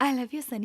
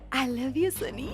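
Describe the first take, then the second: First: It is said plainly, without romantic feeling. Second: It is said romantically, with feeling.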